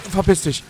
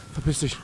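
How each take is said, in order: First: „Verpiss dich“ laut und höher geschrien; wütender Schrei. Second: Said in the usual way. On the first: Real, not acted. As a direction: schrei „Verpiss dich“ voller Panik heraus. Yells at monster. („Verpiss dich“ laut brüllen)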